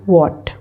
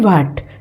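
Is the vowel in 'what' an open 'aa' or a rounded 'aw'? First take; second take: rounded aw; open aa. First: The vowel is a rounded 'aw' sound. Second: The vowel is an open, unrounded 'aa' sound. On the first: The speaker calls it right. "It is वॉट" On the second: The speaker calls it wrong. "It is not वाट"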